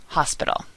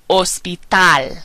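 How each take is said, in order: First: Said in the usual way. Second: Slow Spanish "Hospital", as "os-pee-TAHL"; Spanish, silent H. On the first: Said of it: "similar and mean the same thing". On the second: Shown as a demonstration. Teacher modelling a cognate, Spanish "Hospital" with silent H. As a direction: drop the H in "Hospital", stress the last syllable. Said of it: "H in Spanish is always silent".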